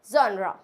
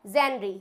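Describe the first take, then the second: First: जॉनरा as zon-raa, said loud; correct pronunciation. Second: जेनरी as jen-ree, ending in "ee"; wrong pronunciation. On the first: Teacher giving the corrected form, loud जॉनरा as "zon-raa". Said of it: "इसको बोलते हैं जॉनरा". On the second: Teacher showing the common mistake, जेनरी as "jen-ree". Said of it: "ये बिल्कुल गलत pronounce किया जाता". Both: Shown as a demonstration.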